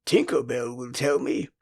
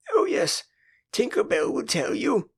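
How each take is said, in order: First: Said in the usual way. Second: Much higher, mocking retort; scornful retort. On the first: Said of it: "Peter said". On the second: A narrator's reading. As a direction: throw it back with scorn. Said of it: "Wendy retorted scornfully".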